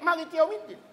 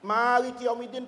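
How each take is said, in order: First: The first vowel is kept short. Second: The first vowel is held long. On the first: "Kenapa Bapak nggak pendek?" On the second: "panjang ... pakai mat tabi'i"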